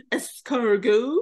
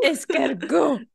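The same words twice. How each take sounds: First: Slow, drawn-out mock French; imitating a bad French order; foreign accent in French. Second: Slow, laughing mock French accent; foreign accent in French. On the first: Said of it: "he'd go to the restaurant". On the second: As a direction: ham up a French waiter voice. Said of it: "trying to speak French".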